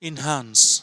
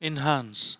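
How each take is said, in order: Both takes have the same delivery.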